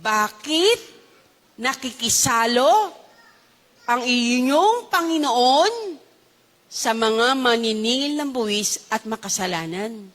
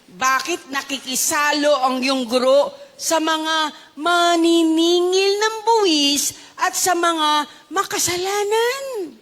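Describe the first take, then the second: First: Word by word, with long pauses; slow deliberate repeat. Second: Slow, drawn-out reading of the question; slow quoted question. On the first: Shown as a demonstration. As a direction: repeat the question slowly in separated chunks. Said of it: "Ulitin ko". (mabagal, putol-putol na pag-uulit) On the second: Acted. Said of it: "Ano ang sabi?". (mabagal at madiing pagbasa ng tanong)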